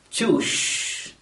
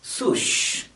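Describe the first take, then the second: First: The word begins with a ch sound. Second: The word begins with an s sound. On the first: "pronounce the word as choosh" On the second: "or at least sush"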